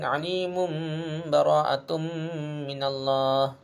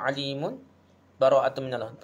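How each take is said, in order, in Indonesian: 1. Kata-katanya menyambung, dengan sambungan bunyi 'm'. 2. Ada jeda singkat setelah 'alimun'. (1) "baca iqlab jadi mim lah" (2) "saktah tu kita berhenti senapah"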